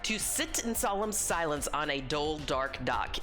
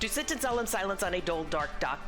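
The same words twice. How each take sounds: First: It is said at a slower pace. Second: It is said at a faster pace.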